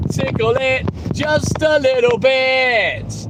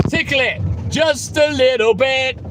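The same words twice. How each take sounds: First: Drawn out slowly and teasingly; slowed right down. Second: Said in the usual way. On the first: Shown as a demonstration. Streamer answering a viewer's request, slow teasing drawl. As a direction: stretch each word slowly, savouring it. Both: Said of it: "Yes, Glennie".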